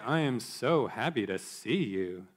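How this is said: The voice is exaggerated and mocking. The speaker means the opposite of the words. "with an exaggerated intonation and rolled eyes"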